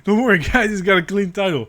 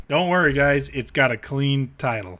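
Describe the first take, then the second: First: Higher, louder sarcastic Don't worry, guys; sarcastic higher reassurance to viewers; mock reassurance. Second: Said in the usual way. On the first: Real, not acted. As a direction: fake reassurance, dripping sarcasm. Repeats it mockingly.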